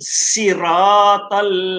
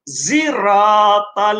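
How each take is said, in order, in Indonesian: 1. Diawali dengan bunyi s yang ringan dan biasa. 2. Diawali dengan bunyi z yang berdengung. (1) "dibaca dengan bunyi hampir kepada sin" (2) "ada qiraat yang lain dibaca dengan zai"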